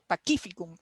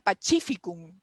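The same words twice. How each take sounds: First: The c is pronounced like k. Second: The c is pronounced like ch. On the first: The speaker calls it right. "aprendimos que la C se pronuncia como Q" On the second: The speaker calls it wrong. "yo juraba que se decía Pacificum, como en italiano"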